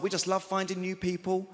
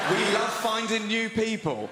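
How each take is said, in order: First: Said in the usual way. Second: Slow, loud, high and emphatic; drawn-out innuendo-laden replay; suggestive repeat. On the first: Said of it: "her husband was like". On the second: Retold or imitated. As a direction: spell it out word by word in disbelief. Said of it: "this couple approached me".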